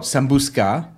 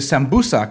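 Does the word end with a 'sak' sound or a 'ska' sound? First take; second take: ska; sak. First: The word ends with a 'ska' sound. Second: The word ends with a 'sak' sound. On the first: The speaker calls it wrong. "a lot of people will call it sambuska, which sounds like, you know, Russian" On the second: The speaker calls it right. "So the sambusak, which I mentioned earlier"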